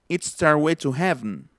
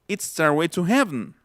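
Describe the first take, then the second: No difference in how they are said.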